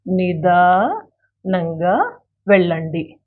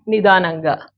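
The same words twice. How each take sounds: First: Drawn out syllable by syllable, with pauses; very slow, segmented model pronunciation; slow teaching demo. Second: Said in the usual way. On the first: Shown as a demonstration. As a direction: stretch each part of నిదానంగా for learners. Teacher repeats it slowly for learners.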